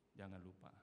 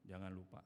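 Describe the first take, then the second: First: Softer echo. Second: Said in the usual way. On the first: Shown as a demonstration.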